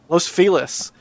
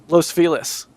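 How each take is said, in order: First: Feliz is pronounced with an English sound. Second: Feliz is pronounced with an English sound.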